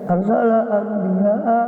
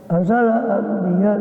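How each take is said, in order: First: Anbiya ends with a glottal stop and vowel. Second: Anbiya ends on a plain vowel. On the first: This full form does not fit the verse meter. The speaker calls it wrong. "kalau hamzanya ditampakkan tidak cukup syairnya. ... nggak cocok" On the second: The sound is dropped to fit the verse meter. The speaker calls it right. "Hamzanya dibuang supaya cocok syairnya"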